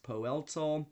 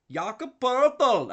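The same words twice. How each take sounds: First: Said in the usual way. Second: "Jakob Poeltl" with a hammed-up Austrian accent, slow, much higher and louder; mock Austrian accent. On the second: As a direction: belt "Poeltl" in a bad fake Austrian accent, drawn out. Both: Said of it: "another incorrect accent".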